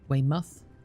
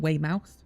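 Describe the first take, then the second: First: The last syllable sounds like 'muth'. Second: The last syllable sounds like 'mouth'. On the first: The speaker calls it right. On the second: The speaker calls it wrong. "not Weymouth"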